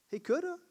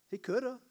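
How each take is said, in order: First: "coulda" said much higher with a rising lift; higher insistent repeat. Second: Said in the usual way. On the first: Shown as a demonstration. Preacher repeats "coulda" to the church, much higher and rising. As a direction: push "coulda" up high and let it rise.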